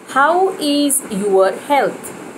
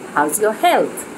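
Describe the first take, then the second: First: The word is is said in full. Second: The word is is contracted onto how. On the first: The speaker calls it wrong. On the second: The speaker calls it right.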